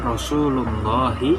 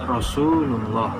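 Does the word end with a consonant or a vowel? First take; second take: vowel; consonant. First: The word ends with a final i vowel. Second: The word ends on a consonant, no vowel.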